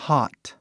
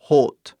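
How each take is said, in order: First: "hot" with a wide-open A-like vowel. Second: "hot" with a closed Portuguese O, like "hote". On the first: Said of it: "um O bem aberto". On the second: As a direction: round and close the vowel of "hot". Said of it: "Algo fechado". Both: Shown as a demonstration.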